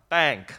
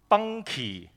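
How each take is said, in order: First: It is one syllable with no extra ending. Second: It ends with an extra, strongly stressed "key" syllable. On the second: "係讀bunky 嚇，好強調個key 字嘅"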